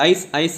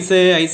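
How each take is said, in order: First: The word is said short and clipped. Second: The word is drawn out with a lengthened ending. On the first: "அப்படின்னு சொல்ல மாட்டாங்க" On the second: "அப்படின்னு சொல்லுவாங்க"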